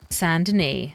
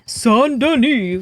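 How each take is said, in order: First: Said in the usual way. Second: High, slow, grand declaration; excited announcement. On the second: Shown as a demonstration. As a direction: proclaim Saint Denis like a herald.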